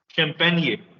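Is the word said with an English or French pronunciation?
French. It is said with a French pronunciation. "here it is shan pahan ye champagne"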